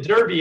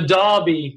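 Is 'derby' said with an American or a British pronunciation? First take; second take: American; British. First: It is said in an American accent. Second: It is said in a British accent. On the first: "to me it's a derby" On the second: "I hear the guys on NBCSN go"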